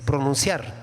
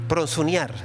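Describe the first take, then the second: First: There is no extra s, ending in -ciar. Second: There is an extra s, ending in -near. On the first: The speaker calls it right. "se dice pronunciar" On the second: The speaker calls it wrong. "no se dice pronsunear"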